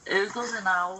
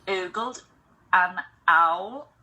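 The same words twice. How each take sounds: First: The words run together as one flowing sound. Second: Each word is pronounced separately with clear breaks. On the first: The speaker calls it right. "if I'm speaking naturally, that's how I would say it" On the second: The speaker calls it wrong. "it would sound too robotic and unnatural"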